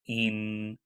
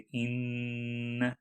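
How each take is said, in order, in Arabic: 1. n عادي، بطرف اللسان. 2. يُحبس n بقوة عبر الأنف. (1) "नून का मखरज" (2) "गुन्ना में स्ट्रिक्टली नाक से आवाज़ निकाली जाती है"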